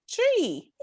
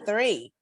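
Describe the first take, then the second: First: The word begins with a hard 't' sound. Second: The word begins with a soft 'th' sound. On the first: "it's their three" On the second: "That's how they say three"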